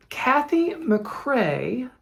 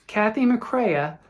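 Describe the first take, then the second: First: McCrae said as mak-RAY, slow with a rising end; Kathy McCrae, drawn out and unsure, ending two syllables on RAY; first try at the name. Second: McCrea said as mak-RAY-uh, slow and careful; corrected name. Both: Shown as a demonstration. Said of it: "or McCrea".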